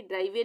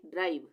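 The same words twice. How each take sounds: First: ड्राइवे with an extra "vay" syllable at the end; wrong pronunciation. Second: ड्राइव ending on a v sound; silent final e. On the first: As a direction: sound the final e in ड्राइवे. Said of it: "ड्राइवे नहीं पढ़ेंगे". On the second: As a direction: close ड्राइव on the consonant, no vowel after. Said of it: "यहाँ पे ई का उच्चारण नहीं होगा". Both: Shown as a demonstration.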